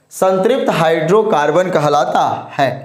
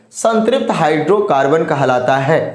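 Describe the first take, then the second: Both takes have the same delivery.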